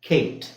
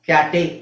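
First: The final e is silent, one syllable. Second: The final e is pronounced as a syllable. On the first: The speaker calls it right. "ಅದು ಕೇಟ್" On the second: The speaker calls it wrong. "ಕ್ಯಾಟೆ ಅಂತ ಹೇಳಕ್ಕಾಗುತ್ತಾ? ಇಲ್ಲ"

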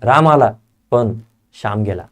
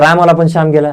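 First: There is a short pause after "पण". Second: It is said straight through without a pause. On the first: The speaker calls it right. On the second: The speaker calls it wrong.

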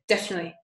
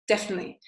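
First: Some syllables of the word are dropped. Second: Some syllables of the word are dropped.

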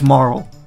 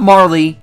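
First: The name is said with one syllable. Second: The name is said with two syllables. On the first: The speaker calls it right. "but it's Marl" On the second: The speaker calls it wrong. "I don't know who pronounces it Marley"

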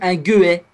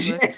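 First: It begins with a hard G sound. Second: It begins with a soft J sound. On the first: The speaker calls it wrong. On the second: The speaker calls it right.

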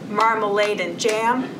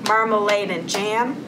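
Both takes have the same delivery.

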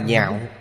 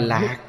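First: The word begins with an NH sound. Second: The word begins with an L sound. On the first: The speaker calls it right. "mà đọc là nhạo" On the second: The speaker calls it wrong. "Chữ này không đọc là lạc"

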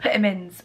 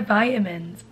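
First: It is said in a British accent. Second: It is said in an American accent.

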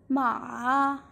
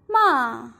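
First: The pitch dips low and then rises. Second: The pitch falls sharply from high to low. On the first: It means horse. "ma in the third tone" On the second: It means to curse somebody. "ma in the fourth tone"

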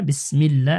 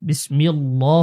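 First: The L sound is light and thin. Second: The L sound is heavy and thick. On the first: The speaker calls it right. "আল্লাহ শব্দের লাম এখানে পাতলা হবে" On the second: The speaker calls it wrong. "বিসমিল্লাহ বিসমিল্লাহ হবে না"

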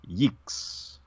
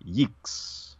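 First: The word has an 'ee' vowel sound. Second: The same.

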